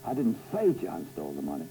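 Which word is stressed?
say. The stress is on "say".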